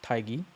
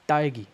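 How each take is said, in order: First: 딸기 with a light, airy first consonant, low and soft; soft wrong take. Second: 딸기 with a hard, tense first consonant; tense double consonant. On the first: Teacher showing the wrong way, 딸기 soft at the start. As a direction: slacken the first sound of 딸기. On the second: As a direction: tighten and punch the start of 딸기. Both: Shown as a demonstration.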